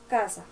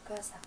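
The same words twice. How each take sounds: First: The word is said somewhat louder. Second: The word is said quietly and low. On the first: "pero un poco más alto" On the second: "en un tono bajito"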